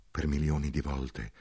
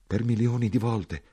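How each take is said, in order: First: "per milioni di volte" said low and soft, a tired soldier; weary soldier. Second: "per milioni di volte" repeated in the narrator's own voice, a touch higher; stunned echo. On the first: A soldier telling the narrator his suffering, low and weary. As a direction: let "milioni" sink, heavy and resigned. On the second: The narrator repeating the soldier's words in disbelief. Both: Acted.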